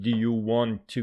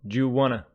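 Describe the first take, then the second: First: 'Want to' is said as two full words. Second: 'Want to' is reduced to 'wanna'. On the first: The speaker calls it wrong. "please don't pronounce it" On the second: The speaker calls it right. "Want to is pronounced wanna"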